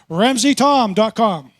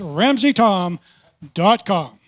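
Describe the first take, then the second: First: It is said in a natural speaking voice. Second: It is said in a put-on radio announcer voice.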